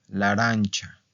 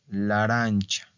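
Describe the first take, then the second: Both takes have the same delivery.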